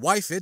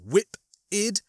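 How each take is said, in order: First: The first syllable sounds like 'wife'. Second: The first syllable sounds like 'whip'. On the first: The speaker calls it wrong. "rather than wife-id, as I had erroneously been told before" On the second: The speaker calls it right. "it's pronounced whip-id"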